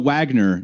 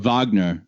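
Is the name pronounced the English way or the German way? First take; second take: English; German. First: The name is pronounced the English way. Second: The name is pronounced the German way. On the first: "you'd say in, in English" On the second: "they say in, in German"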